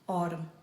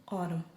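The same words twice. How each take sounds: No difference in how they are said.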